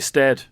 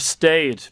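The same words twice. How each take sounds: First: The vowel is a short 'e' sound. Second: The vowel is a long 'ay' sound. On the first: The speaker calls it wrong. "people say stayed" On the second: The speaker calls it right. "For stayed"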